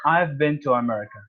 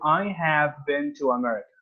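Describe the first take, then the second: First: "I have" is shortened into one syllable. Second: "I have" is said as two full words. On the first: "I've instead of I have" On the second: "I have"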